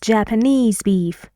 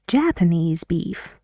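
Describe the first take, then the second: First: Japanese is stressed on its last syllable. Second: Japanese is stressed on its first syllable. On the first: The speaker calls it wrong. "We don't say" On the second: The speaker calls it right. "The stress moves away to the first syllable in Japanese"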